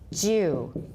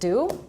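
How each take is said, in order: First: It begins with a J-like sound. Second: It begins with a plain D sound. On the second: "In American, it's just do"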